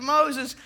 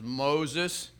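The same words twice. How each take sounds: First: High, loud incredulous echo; mocking disbelief. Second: Lightly voiced parrot, plain-spoken; parrot's answer. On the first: Burglar starts laughing at parrot's name, loud mock disbelief. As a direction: blurt it back high in disbelief. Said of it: "The guy starts laughing". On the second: Parrot giving its name to the burglar, understated. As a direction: answer simply, at an ordinary pitch. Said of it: "He says".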